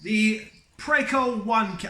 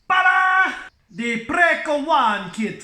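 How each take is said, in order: First: It is said in a plain accent. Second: It is said with an Italian accent.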